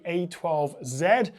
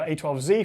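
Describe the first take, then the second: First: The Z is said the British way, 'zed'. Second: The Z is said the American way, 'zee'.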